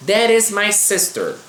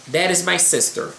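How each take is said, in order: First: "That is my sister" read slowly and a bit higher; slow model reading. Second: Said in the usual way. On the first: Shown as a demonstration. Teacher reading example sentence to students, slow. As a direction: lay out "That is my sister" carefully for learners. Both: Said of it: "Vamos ler exemplos aqui".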